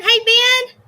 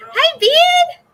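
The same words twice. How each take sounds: First: Calling out. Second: Very high, loud shout of a name. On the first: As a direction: call his name across the house. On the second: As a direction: yell the name even louder to be heard. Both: Real, not acted. Calling out to son Ben.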